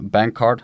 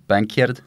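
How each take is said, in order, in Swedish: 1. Det uttalas med standarduttal. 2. Det uttalas med skotskt uttal.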